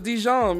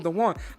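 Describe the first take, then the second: First: The name sounds like 'Dijon', with a 'j' sound. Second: The name sounds like 'Dewan', without a 'j' sound. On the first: The speaker calls it wrong. "I thought it was Dijon" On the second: The speaker calls it right. "So Dewan"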